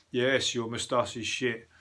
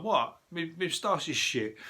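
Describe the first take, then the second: First: Said in the usual way. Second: High, mocking Brummy accent; lightly voiced Birmingham accent, indignant. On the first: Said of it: "telling me that". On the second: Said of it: "That's a funny Brummy accent".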